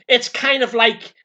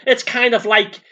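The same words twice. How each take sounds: The two takes are said the same way.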